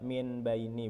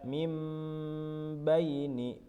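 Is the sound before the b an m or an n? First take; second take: n; m. First: An n sound comes before the b. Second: An m sound comes before the b. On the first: The speaker calls it wrong. "bukan dibaca min baini" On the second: The speaker calls it right. "Jadi dibaca mim baini"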